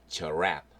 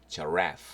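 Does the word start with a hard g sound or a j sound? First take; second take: j sound; j sound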